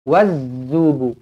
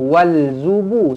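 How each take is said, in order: First: The l merges into a doubled z. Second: The l is heard before the z. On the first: The speaker calls it right. "nampak sabdu terus masuk" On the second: The speaker calls it wrong. "jangan wal zubu, salah"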